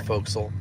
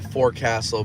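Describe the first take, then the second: First: The word is squeezed into fewer, reduced syllables. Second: Every syllable is said as the word is written. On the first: "but it's pronounced the forecastle" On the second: "you have the forecastle"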